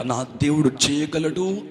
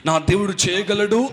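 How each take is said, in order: First: Slow, measured confidence; steady, unhurried conviction; full of faith. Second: Raised, emphatic declaration of courage; bold faith. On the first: Preacher recalling his faith to the congregation, confident. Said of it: "అన్న విశ్వాసంతో". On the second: Preacher declaring his God is able, boldly. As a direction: declare it boldly, pitch lifting. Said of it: "అన్న ధైర్యంతో". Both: Acted.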